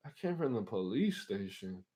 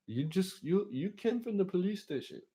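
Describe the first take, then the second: First: Said in the usual way. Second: High put-on driver voice; imitated cabbie, pitched up. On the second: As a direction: explain in a high, squeaky imitation.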